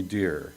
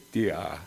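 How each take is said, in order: First: Said in the usual way. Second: "dia" with the final r dropped to an open ah; "dia", r-less New England dear; Maine-style "dia". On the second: Shown as a demonstration. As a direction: say "dia" as dear without its r, ending in ah. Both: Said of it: "but they pronounced it dia".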